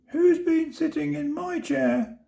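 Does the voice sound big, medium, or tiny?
tiny. It is said in a tiny, high voice. "said the baby bear in his teeny tiny voice"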